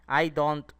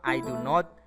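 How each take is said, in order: First: The negative is said as one short contraction. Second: The negative is said as two full words.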